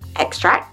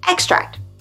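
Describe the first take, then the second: First: The sound is dropped completely. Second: The sound is only half articulated. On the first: "sometimes we drop the sound completely" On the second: "we just cut the sound short, like we half articulate it"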